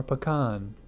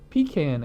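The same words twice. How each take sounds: First: "Pecan" said puh-KAHN; alternative pronunciation of pecan. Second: "Pecan" said PEE-can; first pronunciation of pecan. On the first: Reviewer offering the other option, "Pecan" pronounced puh-KAHN. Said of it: "pronounce it pecan or pecan". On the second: Reviewer naming the beer, "Pecan" pronounced PEE-can. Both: Shown as a demonstration.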